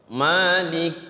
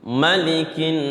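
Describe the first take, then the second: First: The first vowel is drawn out long. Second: The first vowel is said short. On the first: This is the form in Surah Al-Fatihah. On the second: This is the form in Surah An-Nas.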